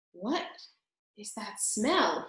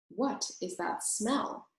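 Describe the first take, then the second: First: Softer, slower wondering question; puzzled sniffing question. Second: Said in the usual way. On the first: A narrator's reading. Roscuro wonders at the mouse's smell, slow and soft. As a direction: ask while sniffing the air. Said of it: "he asked".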